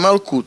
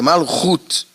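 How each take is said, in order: First: The middle consonant is a hard k sound. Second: The middle consonant is a throaty h sound. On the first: The speaker calls it wrong. "Não é Malkut" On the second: The speaker calls it right. "é Malhut"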